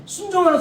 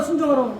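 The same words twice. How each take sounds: First: 순종하라 called out high and loud like a stern command; commanding order. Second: Said in the usual way. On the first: Retold or imitated. Preacher quoting God's command to obey, loud and high. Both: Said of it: "순종하라 하잖아요".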